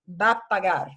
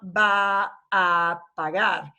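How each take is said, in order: First: The words run together with drawn-out a's. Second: Each word is said separately with breaks. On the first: The speaker calls it right. "va runs together" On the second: The speaker calls it wrong. "you're not going to hear people separating out va a pagar"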